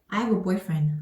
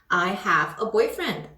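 First: 'I have a' is blended quickly into one unit. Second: Each word of 'I have a' is said distinctly. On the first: "빨리 말해야 되는 구간은 요 세 가지 단어에 대한 합침" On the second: "또박또박 말하기보다는"

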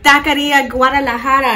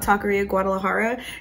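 First: The R sounds are strongly rolled. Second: The R sounds are said plain, not rolled. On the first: The speaker calls it right. "I don't got time to be rolling all the R's" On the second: The speaker calls it wrong. "that is not how you say it"

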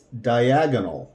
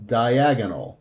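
Both takes have the same delivery.

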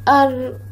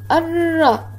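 First: The r sound ends bare, with no vowel. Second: The r sound is followed by a vowel. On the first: "المرة الأولى ساكنة" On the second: "المرة الثانية متحركة"

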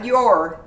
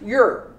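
First: The word is said in its full form. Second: The word is shortened to a quick weak form. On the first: The speaker calls it wrong. "Not your" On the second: The speaker calls it right. "sometimes is shortened like this"

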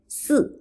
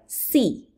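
First: It is pronounced with a Chinese-like sound. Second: It is pronounced with an English-like sound. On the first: The speaker calls it right. "It's si" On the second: The speaker calls it wrong. "If you want to stress the English way too much, you may pronounce like si, but it's not right"

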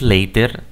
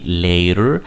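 First: The middle consonant is a clear T sound. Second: The middle consonant is a quick R-like tap. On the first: "Si tú dices later, es correcto" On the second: "en lugar de decir la T dices la R"

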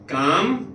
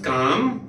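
Both takes have the same delivery.

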